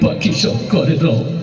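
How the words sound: It is said in a crying, tearful voice. "ও কান্দি দিয়ে বললো"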